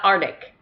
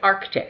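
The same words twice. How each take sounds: First: The k sound before the t is dropped. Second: The k sound before the t is pronounced. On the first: The speaker calls it wrong. "it's not Arctic" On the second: The speaker calls it right. "I say it with the C"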